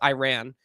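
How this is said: It is said with an American pronunciation. "if you try and say it in American, because it is American, it's Iran"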